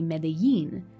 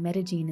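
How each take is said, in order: First: The double L is said the Mexican Spanish way. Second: The double L is said the local Paisa way. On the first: "how the double L is enunciated in certain Spanishes of the world, including the Spanish of Mexico" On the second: "in la manera muy paisa paisa"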